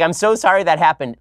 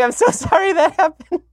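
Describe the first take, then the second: First: Said in the usual way. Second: Mock apology squeezed out through laughter, much higher; imitating wife laughing. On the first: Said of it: "laughing at me the entire time". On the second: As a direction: play the wife cracking up mid-apology. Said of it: "Like, literally laughing".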